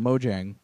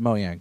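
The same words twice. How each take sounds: First: The J sound is clearly pronounced. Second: The J sound is left silent. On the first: The speaker calls it wrong. "like I always called them Mojang" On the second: The speaker calls it right. "apparently it's pronounced Mojang"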